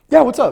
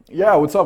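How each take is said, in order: First: It is said quickly and sounds flustered. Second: It is said slowly and sounds calm. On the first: The speaker is caught off guard and eager. The speaker calls it wrong. "No, don't do that" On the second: What she has to say is not urgent. The speaker calls it right. "gently and slowly turn around addressing her and use a calm tone of voice"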